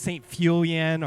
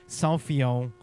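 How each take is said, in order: First: The name is pronounced in an anglicized way. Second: The name is pronounced in a French way. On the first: This is how the speaker's group used to say it. The speaker calls it wrong. "I always thought it was Saint Fulian or something like that" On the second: This is how a French speaker says it. The speaker calls it right. "but it's Saint Fillon"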